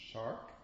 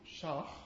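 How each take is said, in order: First: The final k is a clean stop. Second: The final k is a rough fricative. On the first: "rather than" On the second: "the K sound becomes fricative"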